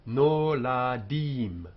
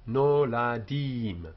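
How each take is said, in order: No difference in how they are said.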